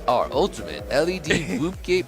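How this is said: It is read in an imitated announcer voice.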